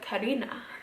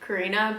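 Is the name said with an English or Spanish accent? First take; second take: Spanish; English. First: The name is said with a Spanish accent. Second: The name is said with an English accent. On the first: The speaker calls it right. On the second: The speaker calls it wrong. "the way I just said it"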